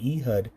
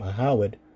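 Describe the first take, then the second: First: The name is said in its common form. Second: The name is said in a longer, older form.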